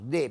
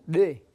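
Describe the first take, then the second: First: The d is a plain d sound. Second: The d is made implosive, drawing air in. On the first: This is the sound used in the word for house. "como si fuera eh, la D de nosotros" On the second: This is the sound used in the phrase in the house. "con la implosiva"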